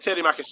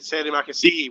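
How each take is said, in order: First: The last word ends in an 'ah' sound. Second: The last word ends in an 'ee' sound. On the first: The speaker calls it wrong. "I said" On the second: The speaker calls it right. "I meant to say"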